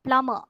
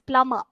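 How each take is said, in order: First: The b sound is silent. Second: The same.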